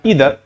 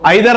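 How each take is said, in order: First: The first vowel sounds like 'ee'. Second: The first vowel sounds like 'eye'. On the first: The speaker calls it right. "ये होता है ईदर" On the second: The speaker calls it wrong. "इसको आइदर नहीं होता"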